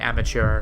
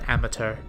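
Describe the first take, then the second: First: It is said with an American pronunciation. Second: It is said with a British pronunciation.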